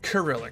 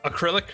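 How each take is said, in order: First: The word begins with an s sound. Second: The word begins with a vowel sound. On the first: The speaker calls it right. "No. Cyrillic" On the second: The speaker calls it wrong. "I think for a hot minute I called it like just acrylic"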